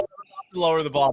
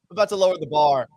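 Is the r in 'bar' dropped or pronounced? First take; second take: dropped; pronounced. First: Bar is said without the r, Boston style. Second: Bar is said with a clear final r.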